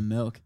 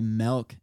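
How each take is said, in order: First: The vowel sounds like the i in 'bill'. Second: The vowel sounds like the e in 'bell'. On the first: "instead of milk" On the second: "a lot of people say milk"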